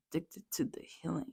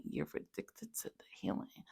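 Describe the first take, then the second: First: Said in the usual way. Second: Whisper. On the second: Shown as a demonstration.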